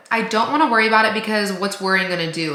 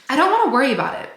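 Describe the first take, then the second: First: Said in the usual way. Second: Higher and fast, wanna stressed; quick and high. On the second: Real, not acted. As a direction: rush it out lightly.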